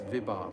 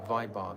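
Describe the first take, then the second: First: The first syllable has a short 'i' sound. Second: The first syllable has a long 'ai' sound. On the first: The speaker calls it right. "it's Vibhav" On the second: The speaker calls it wrong. "I mispronounce this word Vibhav every single time. I say Vaibhav"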